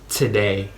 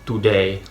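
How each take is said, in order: First: The t has a strong puff of air. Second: The t has no puff of air. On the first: "it's not today" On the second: "you wouldn't really, I would guess, aspirate the t"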